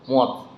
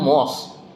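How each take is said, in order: First: The syllable ends with a t-like stop. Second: The syllable ends with an s sound. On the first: The speaker calls it right. "S itu masuknya ke huruf T. Nah, jadi bacanya mod" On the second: The speaker calls it wrong. "harusnya kan mos, tapi di situ kan e, S nggak ada tuh"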